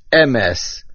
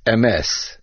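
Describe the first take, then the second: First: "emes" stressed on the first syllable, E-mes; accent on the aleph. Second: "emes" stressed on the final syllable, e-MES; accent on the mem. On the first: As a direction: hit the opening E of "emes". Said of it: "with the accent on the aleph". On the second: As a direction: pass lightly over the E and land on MES in "emes". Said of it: "There cannot be a main accent on a chatof". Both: Shown as a demonstration.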